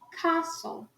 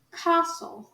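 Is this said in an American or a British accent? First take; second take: British; British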